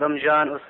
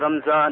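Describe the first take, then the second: First: The m runs into a j sound. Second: The m runs into a z sound. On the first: "Not as some people say" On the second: "Not as some people say"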